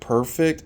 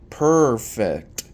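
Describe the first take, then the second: First: The first syllable is said in an ordinary way. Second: The first syllable is drawn out like a purr. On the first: "instead of saying perfect" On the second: "like a cat purring"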